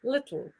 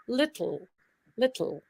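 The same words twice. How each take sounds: First: "Little" quiet, with air puffed out the sides of the tongue; lateral plosion little. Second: "little" with the t dropped and air puffed out the sides; "little" said with a soft puff of air through the tongue's sides; lateral plosion little. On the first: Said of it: "lateral plosion". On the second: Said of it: "Do you hear that funny sound I'm making". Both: Shown as a demonstration.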